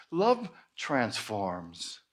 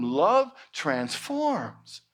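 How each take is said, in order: First: Love transforms very slow, lower and softer; hushed slow Love transforms; slow emphasis. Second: Love transforms said very slowly, Love leaned on; solemn slow Love transforms; slow emphasis. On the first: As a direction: let Love transforms sink low and quiet. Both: Shown as a demonstration. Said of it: "sermon emphasis".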